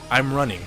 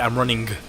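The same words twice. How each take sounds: First: The final G is soft, barely sounded. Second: The final G is hard and clearly sounded. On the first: The speaker calls it right. "a simple thing" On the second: The speaker calls it wrong. "why are you putting that emphasis on the G"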